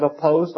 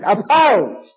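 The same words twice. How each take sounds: First: Said in the usual way. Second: Loud, high-pitched shout of a single word; re-enacted loud, defiant no vote. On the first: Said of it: "When they said". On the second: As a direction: belt out the vote so the whole room hears. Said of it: "And I said it loudly".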